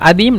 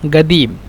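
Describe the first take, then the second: First: The word starts with a glottal stop. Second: The word starts with a g sound. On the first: "কফকে হয়তোবা ... হামজা বলে" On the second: "অথবা গয়েন বলে"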